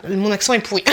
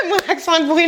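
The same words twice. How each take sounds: First: Said in the usual way. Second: Laughing at her own bad accent. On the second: Real, not acted. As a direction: say "Mon accent est pourri" through a laugh, pitch jumping higher.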